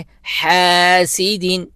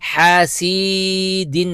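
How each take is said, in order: First: The vowel after the s is kept short. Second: The vowel after the s is stretched long. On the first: The speaker calls it right. "सीन को एक हरकत की मिकदार" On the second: The speaker calls it wrong. "नहीं पढ़ना"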